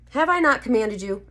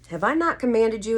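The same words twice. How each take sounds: First: It is an emphatic, exasperated exclamation. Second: It is a calm, plain question.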